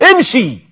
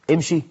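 First: Scornful "امشي", pitched high and tossed off; mocking dismissal. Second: "امشي؟" repeated softly as a shocked question; can't believe anyone says this; incredulous echo. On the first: Friend mocking the sneezer: scornful "امشي". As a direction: shoo him off like a dog. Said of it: "يقول له مستهزئا". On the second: Real, not acted. Preacher echoing the insult, quietly appalled. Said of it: "هو كلب".

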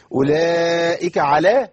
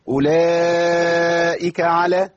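First: أولئك على with على cut short and stressed; wrong على. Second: أولئك على drawn out very slowly, vowels held; correct long madd. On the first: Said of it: "ما تنفعش". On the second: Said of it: "تمام". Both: Shown as a demonstration.

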